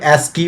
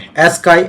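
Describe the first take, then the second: First: The word ends with an 'ee' sound. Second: The word ends with an 'eye' sound. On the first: "अगर आप Google में search करोगे तो ये कुछ एस्की ऐसे कुछ प्रोनाउंस होगा" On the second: "बाकी आपको इसे एस्काई टेबल भी काफी ज्यादा बोलते हैं"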